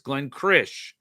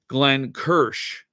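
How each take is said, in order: First: The r sound comes before the vowel. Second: The r sound comes after the vowel. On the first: The speaker calls it right. "It's Glenn Krish" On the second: The speaker calls it wrong. "I mispronounced Glenn's name ... I just displaced the R and the I"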